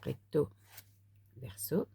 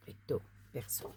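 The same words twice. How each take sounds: First: Said in the usual way. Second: Whispered. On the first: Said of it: "repeating the card label". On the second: Shown as a demonstration. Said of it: "repeating the card label, hushed".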